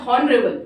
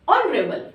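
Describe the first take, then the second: First: "honorable" with the H sounded, as "hon-rebel"; H pronounced. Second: "honorable" with no H, starting on the vowel, "on-rebel"; silent H. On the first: Teacher showing students the mistake to avoid, "honorable" with H sounded. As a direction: start "honorable" on an audible H. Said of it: "you don't never pronounce as". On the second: Teacher giving students the usual pronunciation, "honorable" with silent H. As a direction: drop the H and begin "honorable" on "on". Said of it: "we usually pronounced as". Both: Shown as a demonstration.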